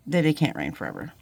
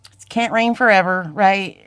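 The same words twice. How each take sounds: First: "that it can't rain forever" said softer and lower; soft promise. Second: "it can't rain forever" pushed out louder; emphatic reassurance. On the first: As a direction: let the promise settle gently. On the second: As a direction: lean into "forever" with firm encouragement. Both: Real, not acted. Encouraging viewers, repeated line.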